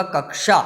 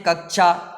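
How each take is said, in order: First: कक्षा with a clear "ksha"; correct pronunciation. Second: कक्षा said loosely as "kakchha"; common mispronunciation. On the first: Teacher giving the right form, कक्षा with clear ksha. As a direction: sound k then sh in कक्षा. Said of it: "लेकिन इसका सही वाक्य होगा". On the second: Teacher showing students' usual mistake, कक्षा as "kakchha". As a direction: blur the ksha in कक्षा towards chha. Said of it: "इस प्रकार से हम गलत उच्चारण". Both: Shown as a demonstration.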